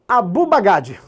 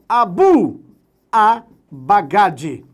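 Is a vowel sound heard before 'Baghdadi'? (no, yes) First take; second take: no; yes. First: No vowel comes before Baghdadi. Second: A short 'a' vowel comes before Baghdadi.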